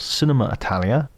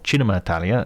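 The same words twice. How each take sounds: First: It is said with an English accent. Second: It is said with an Italian accent.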